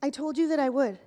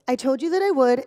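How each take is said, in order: First: Said in the usual way. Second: Louder, irritated insistence into the phone; annoyed, louder. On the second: Acted. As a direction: press it home, losing patience. Annoyed phone call, repeated line.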